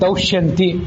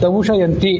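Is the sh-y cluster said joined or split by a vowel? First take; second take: joined; split. First: The sh and y sounds are joined together. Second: A vowel splits the sh and y sounds. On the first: This is the standard form of the name. "ಶ ಗೆ ಎರಡು ಒತ್ತಿದೆ" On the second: This is the poet's metrical form of the name. "ಅದು ಶ ಅಂತ ದಾಸರು ಎರಡಾಗಿ ವಿಭಾಗ ಮಾಡಿಕೊಂಡಿದ್ದಾರೆ"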